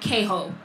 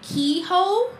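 First: The name is pronounced the Spanish way. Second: The name is pronounced the common English way. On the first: "the Spanish pronunciation" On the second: "most people pronounce his name Queho"

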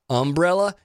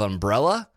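First: The stress falls on the first syllable. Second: The stress falls on the second syllable. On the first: This is how many Southerners say it. "I've often heard them say umbrella" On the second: This is how most people say it. "instead of umbrella"

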